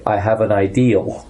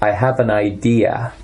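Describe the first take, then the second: First: Idea is said with a final L sound. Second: Idea is said without a final L sound.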